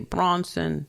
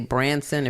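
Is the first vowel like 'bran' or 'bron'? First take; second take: bron; bran. First: It is said in a Brooklyn accent. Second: It is said in a New Jersey accent.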